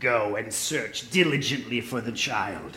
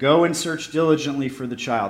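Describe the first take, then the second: First: It is read in an Emperor Palpatine voice. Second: It is read in a plain, normal voice.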